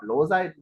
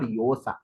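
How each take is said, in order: First: The name begins with an L sound. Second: The name begins with a Y sound. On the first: The speaker calls it wrong. "It's actually not Losa in Spanish" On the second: The speaker calls it right. "If two L L comes together, it's called Yosa"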